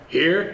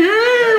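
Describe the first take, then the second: First: Bottom of the climb. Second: "here" very high and loud; top of the climb. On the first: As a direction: say "here" unraised, as the first step. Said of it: "a stairway or an elevator". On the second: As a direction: hit "here" at the very peak of your range. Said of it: "all the way to the top". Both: Shown as a demonstration.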